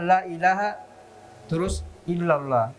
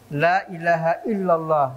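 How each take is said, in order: First: There is a break before the last word. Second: The phrase flows on without a pause. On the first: The speaker calls it wrong. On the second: The speaker calls it right. "Anda itu bersambung"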